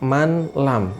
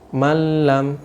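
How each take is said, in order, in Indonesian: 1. Bunyi n diucapkan dengan jelas sebelum l. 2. Bunyi n menyatu ke dalam l setelahnya. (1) "jangan dibaca man lam" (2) "Contoh yang kedua"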